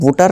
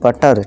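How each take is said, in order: First: The first vowel sounds like 'oo'. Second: The first vowel sounds like 'uh'. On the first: The speaker calls it wrong. "बुटर नहीं" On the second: The speaker calls it right. "नहीं बटर"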